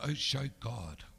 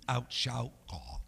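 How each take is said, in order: First: It is spoken with an Irish-sounding accent. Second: It is spoken with an Oklahoma accent. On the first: "That was very Irish there" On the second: "Let me help you with Oklahoma"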